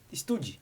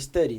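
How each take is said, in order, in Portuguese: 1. Um som de e extra vem antes do s. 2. A palavra começa direto com o som de s. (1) "quando a gente vai ler a primeira vez e vai falar, a gente lê" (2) "que é o certo a se falar"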